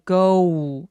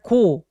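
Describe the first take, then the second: First: The vowel glides as a diphthong. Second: The vowel is a single steady sound. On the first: The speaker calls it right. "go 이렇게 이중 모음 소리 내기" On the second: The speaker calls it wrong. "let her go 아니고"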